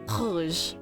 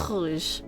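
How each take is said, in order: First: It has a French accent and throaty R. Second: It has a French accent and throaty R.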